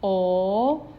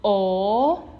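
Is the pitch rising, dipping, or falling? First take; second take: rising; rising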